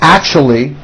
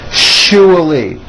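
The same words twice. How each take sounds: First: The middle consonant is a ch sound. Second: The middle consonant is a sh sound. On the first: The speaker calls it wrong. "It's not actually with a C H" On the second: The speaker calls it right. "with an S H sound"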